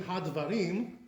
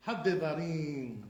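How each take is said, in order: First: Hadvarim in three syllables, had-va-rim; dropped sheva. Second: Hadevarim slowly, had-de-va-riiim; sounded sheva. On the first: Teacher showing the wrong way, Hadvarim without sheva. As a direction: close "had" straight onto "va" in Hadvarim. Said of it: "So instead of being". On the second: Teacher showing the right way, slow Hadevarim, sheva sounded. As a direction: draw out Hadevarim with a clear "de". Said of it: "That's the way it has to be". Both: Shown as a demonstration.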